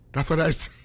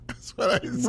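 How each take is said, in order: First: Said in the usual way. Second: Says "That's what I say" again through a breathy laugh; laughing it off, half-whispered. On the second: Real, not acted. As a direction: chuckle the words out, barely voiced.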